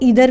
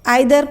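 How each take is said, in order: First: The first vowel sounds like 'ee'. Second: The first vowel sounds like 'eye'. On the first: "आइदर को इधर भी pronounce करते हैं" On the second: "आइदर को इधर भी प्रोनाउंस करते हैं"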